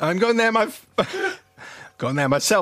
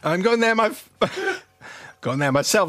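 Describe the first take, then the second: First: It is said in a put-on character voice. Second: It is said in a put-on character voice.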